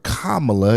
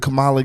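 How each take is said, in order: First: The name is said the insisted-on way. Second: The name is said the everyday way. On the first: The speaker calls it right. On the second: The speaker calls it wrong.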